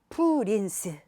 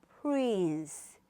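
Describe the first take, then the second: First: Extra vowels are added, giving three syllables. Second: It is said as one syllable. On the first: The speaker calls it wrong. "이렇게 하시면 절대로 듣기도 안 되고" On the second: The speaker calls it right. "하나의 모음으로"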